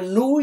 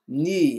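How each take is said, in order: First: The vowel is a back rounded oo. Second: The vowel is a French-like rounded u. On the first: The speaker calls it wrong. "Não é nu" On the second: The speaker calls it right. "ele é mais afrancesado"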